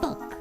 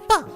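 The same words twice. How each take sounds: First: It is said in a slightly gravelly voice. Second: It is said in a high-pitched voice. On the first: The speaker calls it right. "Like a little gravelly" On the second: The speaker calls it wrong. "has this high-pitched voice where she's like"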